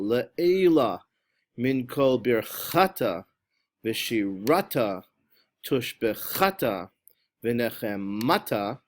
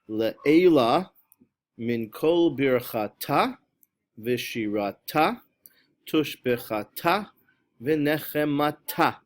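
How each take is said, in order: First: The stress falls on the middle syllable. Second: The stress falls on the last syllable. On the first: The speaker calls it wrong. "on the middle syllable" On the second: The speaker calls it right. "the correct pronunciation is on the last syllable"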